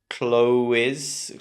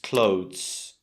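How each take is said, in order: First: The ending is sounded out as a fuller extra sound. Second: The word ends with only a soft z sound. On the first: The speaker calls it wrong. "make mistakes with that final E S sound. They say something like" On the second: The speaker calls it right. "It's just clothes"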